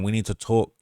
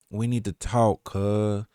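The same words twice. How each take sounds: First: Said in the usual way. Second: Tentative slow Southern drawl; a rapper's voice. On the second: Retold or imitated. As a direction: stretch it out softly, trying an impression. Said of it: "if I can do the rapper's voice".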